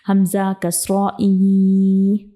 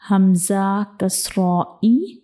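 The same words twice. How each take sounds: First: The final vowel is drawn out long. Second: The final vowel is short and clipped. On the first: The speaker calls it wrong. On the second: The speaker calls it right.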